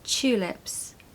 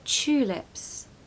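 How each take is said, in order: First: The word begins with a ch sound. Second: The word begins with a ch sound.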